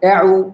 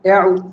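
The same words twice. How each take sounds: First: The vowel glides from an e-like sound. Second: The vowel glides from an e-like sound.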